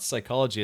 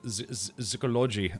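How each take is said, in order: First: The word is pronounced the English way. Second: The word is pronounced the German way. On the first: The speaker calls it wrong. "It's not psychology" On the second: The speaker calls it right. "It's like psychology or, or something like that"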